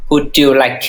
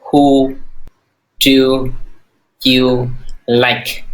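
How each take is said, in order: First: Said in the usual way. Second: Slow, each word apart; broken into separate words for drilling. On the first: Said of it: "nhắc lại". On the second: Shown as a demonstration. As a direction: say it one word at a time. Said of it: "Lo nói chị".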